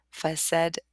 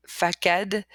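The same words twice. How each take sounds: First: "façade" with an S sound, like fa-sad; soft-S pronunciation. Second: "facade" with a hard K, like fa-kad; wrong hard-K pronunciation. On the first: Teacher showing word with its cedilla, soft S. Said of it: "but with it". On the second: Teacher showing word without its cedilla, hard K. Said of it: "without it". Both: Shown as a demonstration.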